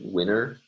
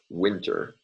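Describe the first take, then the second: First: The t after the n is dropped. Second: The t after the n is pronounced.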